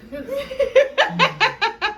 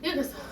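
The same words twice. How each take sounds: First: Drawn-out laughing plea; very slow, high, laughing. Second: Said in the usual way. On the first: Real, not acted. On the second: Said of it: "Tell me when to stop".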